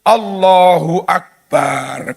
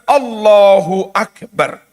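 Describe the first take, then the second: First: The final syllable 'bar' is drawn out long. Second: The final syllable 'bar' is kept short. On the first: The speaker calls it wrong. "Ada lagi yang bar didawakne. ... Ku ya salah" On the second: The speaker calls it right.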